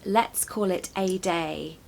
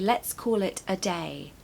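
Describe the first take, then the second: First: The word 'a' is a full 'ay' sound. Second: The word 'a' is a weak 'uh' sound. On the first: The speaker calls it wrong. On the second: The speaker calls it right. "So we say"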